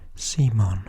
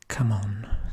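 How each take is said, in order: First: The acronym is said like the name 'Simon'. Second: The acronym is said like the words 'come on'. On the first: This is how most other people say it. The speaker calls it wrong. "everybody else seems to pronounce it Simon" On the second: This is the speaker's own way of saying it. The speaker calls it right. "which I call Come On"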